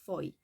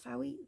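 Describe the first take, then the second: First: The name rhymes with toy. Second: The name does not rhyme with toy. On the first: The speaker calls it right. "this is foy, like toy" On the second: The speaker calls it wrong. "this is not Fowie"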